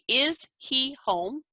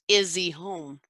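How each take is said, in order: First: The h in 'he' is clearly pronounced. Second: The h in 'he' is dropped entirely. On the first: "Instead of saying" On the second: "You'll notice that the H has been removed"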